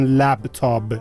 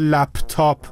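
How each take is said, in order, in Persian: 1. هجای دوم با صدای b تمام میشه. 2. هجای دوم با صدای p تمام میشه.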